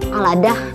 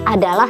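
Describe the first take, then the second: First: The syllables are swapped around. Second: The syllables come in their normal order. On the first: The speaker calls it wrong. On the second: The speaker calls it right.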